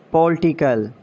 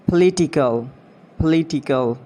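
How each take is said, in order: First: "Political" as POL-ti-kul; mispronounced political. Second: "Political" as puh-LIT-i-kul; British pronunciation. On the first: Acted. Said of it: "you have to correct me". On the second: Shown as a demonstration. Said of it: "exact pronunciation according to the British".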